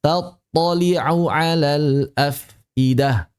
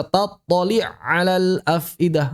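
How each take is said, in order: First: Very slow "Tattali'u alal afidah", the u clearly voiced; bacaan benar. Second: "tattali' alal afidah" with no u ending tattali'; bacaan salah. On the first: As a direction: spell out "Tattali'u" slowly, keeping its final u. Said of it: "Jangan dibaca tattali' alal afidah". (lafalkan "Tattali'u alal afidah" perlahan, harakat u jelas) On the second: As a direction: merge "tattali'" into "alal", dropping the vowel. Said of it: "Jangan dibaca". (lafalkan "tattali' alal" tanpa harakat u, diidghamkan) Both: Shown as a demonstration.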